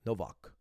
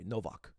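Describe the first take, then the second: First: The name is said the Polish way. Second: The name is said the Polish way.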